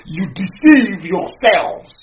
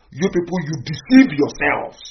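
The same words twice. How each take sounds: First: Very slow, each word weighed, "deceive" drawn out; even slower emphasis. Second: Slow, deliberate, accusing; slow accusation. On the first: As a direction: drag out "deceive" in "You deceive yourselves". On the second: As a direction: spell it out slowly: You deceive yourselves. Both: Real, not acted.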